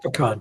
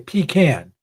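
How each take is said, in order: First: The first syllable does not sound like 'pea'. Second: The first syllable sounds like 'pea'. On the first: The speaker calls it right. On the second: The speaker calls it wrong.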